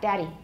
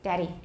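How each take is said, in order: First: The middle D is a quick, short tap. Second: The same.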